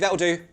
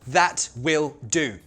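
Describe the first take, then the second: First: The first two words merge into one contracted word. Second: The first two words are said separately in full.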